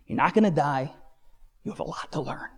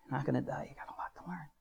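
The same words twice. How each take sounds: First: Said in the usual way. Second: Very soft, near whisper; haunting recalled words. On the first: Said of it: "I hear 'em like I'm talking to you". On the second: Retold or imitated. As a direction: murmur it like words stuck in your head. Words gnawing at him, recalled.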